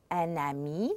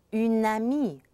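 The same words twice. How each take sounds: First: "un ami" with un vowel, N linked onto "ami"; masculine liaison. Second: "une amie" with a clear French u, N linked onward; louder "une amie", stressing the u vowel; feminine liaison. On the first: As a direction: start "ami" with the N of "un". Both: Shown as a demonstration. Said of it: "very important how you pronounce the vowel".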